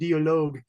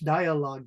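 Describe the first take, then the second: First: It is pronounced the way a German speaker would. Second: It is pronounced the way an English speaker would. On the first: The speaker calls it wrong. "that's the German pronunciation" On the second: The speaker calls it right. "So in English"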